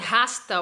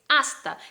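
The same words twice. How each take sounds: First: The word starts with an audible h sound. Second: The word starts directly with a strong a. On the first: The speaker calls it wrong. "no se dice" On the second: The speaker calls it right. "sí es hasta, el sonido es A y es fuerte"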